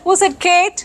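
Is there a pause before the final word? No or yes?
no. It runs on with no pause before the last word. The question asks who said the name Kate. "Somebody said Kate, so we want to know who said Kate?"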